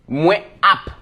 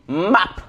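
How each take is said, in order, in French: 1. Ça se dit en deux mots séparés. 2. Ça se dit en un seul mot contracté. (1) "ils disent moi app" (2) "tu peux dire map"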